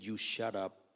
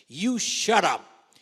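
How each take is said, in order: First: Said in the usual way. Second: "You shut up" barked slow and loud, voice higher and rough; harsh "shut up". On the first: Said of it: "He said". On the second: Retold or imitated. Manager silencing the agent in his office, slow loud harsh command. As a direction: bark "You shut up" slowly with force. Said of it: "and he said".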